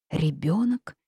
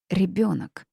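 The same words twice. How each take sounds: First: Rising, startled "Ребёнок?"; frightened question. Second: Falling, pointed "Ребёнок"; firm reminder. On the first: Heroine reacts to the witch's news, startled. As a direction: ask "Ребёнок?" in alarm, pitch lifting at the end. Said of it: "Я испуганно уставилась". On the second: Heroine prods the witch back to the child, firmly. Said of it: "напомнила я". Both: A narrator's reading.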